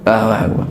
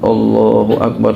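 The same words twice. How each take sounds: First: It is said quickly and flatly. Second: It is said carefully and expressively. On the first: The prayer is done carelessly when alone. "aduh garing bener" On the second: The prayer is done to impress onlookers. "fase banget deh"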